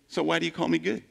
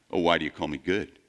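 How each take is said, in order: First: Said in the usual way. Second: Lower, quick and offhand, brushing off the compliment; brusque dismissal. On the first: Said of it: "It's like, come on, Jesus". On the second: Retold or imitated. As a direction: toss the question back without social graces. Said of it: "Can't you cooperate a little bit with some social graces".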